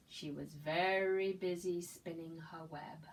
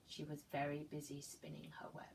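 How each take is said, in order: First: Said in the usual way. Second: Hushed storybook whisper; soft whispered refrain. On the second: Acted. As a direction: whisper it as a secret to the children. Refrain whispered while reading aloud.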